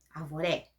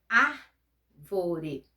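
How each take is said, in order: First: The stress falls on the final syllable. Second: The stress falls before the final syllable.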